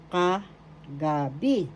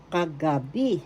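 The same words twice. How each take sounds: First: "Kagabi" slowly, as "ka", pause, "gabi"; slow, split syllables. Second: Said in the usual way. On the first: Shown as a demonstration. Teacher repeating kagabi for learners, slow and split. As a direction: pull "Kagabi" apart, lingering on each piece.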